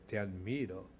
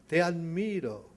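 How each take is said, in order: First: Softer, lower, distant reply; faint echo. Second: Loud, high call of praise; warm shout. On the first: Mountain answers the father, faint distant echo. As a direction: let it come back faint like an echo. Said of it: "la montaña responde". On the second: Father shouts praise to the mountain, loud call. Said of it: "el padre grita a la montaña". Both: A narrator's reading.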